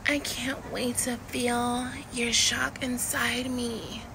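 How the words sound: It is said in a mild Californian style.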